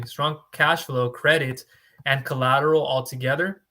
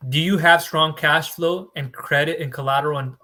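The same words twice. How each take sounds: First: Careful restart after a slip; slow and deliberate. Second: Said in the usual way. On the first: Shown as a demonstration. Broker to viewers, correcting himself, slow and spaced out. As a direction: spell out each item slowly, one by one. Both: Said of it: "uh, excuse me".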